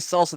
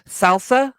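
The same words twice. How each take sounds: First: It is said in a plain, ordinary way. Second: It is said with an exaggerated put-on accent. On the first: This is the normal way to say it. The speaker calls it right. "They wouldn't say salsa" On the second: The speaker is showing off a fake foreign flair. The speaker calls it wrong. "they would say salsa, ... Why do you say it like that?"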